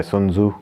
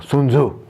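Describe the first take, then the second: First: Said in the usual way. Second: "Sun Tzu" as soon-zoo, pitched higher; Japanese-like pronunciation. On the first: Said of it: "I don't know how they pronounce it". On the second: Shown as a demonstration. Reader guessing an author's name, "Sun Tzu" in a higher Japanese-like way. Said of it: "that was more Japanese".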